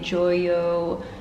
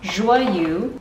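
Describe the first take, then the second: First: The name is said with an anglicized pronunciation. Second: The name is said with a French-sounding pronunciation. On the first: The speaker calls it wrong. "I've been saying it very wrong" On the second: The speaker calls it right. "Should have known to put more French into it"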